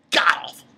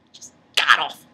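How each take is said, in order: First: Said in the usual way. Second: Whispered "god-awful"; whispered repeat. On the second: Real, not acted. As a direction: breathe "Just god-awful" with no voice. Repeating the insult.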